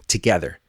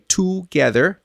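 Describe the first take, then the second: First: 'together' as quick tuh-GETHER; reduced first syllable. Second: 'together' as TOO-gether with a full oo; unreduced vowel. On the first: Teacher giving what everybody says, 'together' as tuh-gether. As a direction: barely voice the first vowel of 'together'. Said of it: "Everybody will say together". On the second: Teacher giving the rare version, 'together' as too-gether. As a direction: stretch the first syllable of 'together' to too. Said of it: "Very few people will say". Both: Shown as a demonstration.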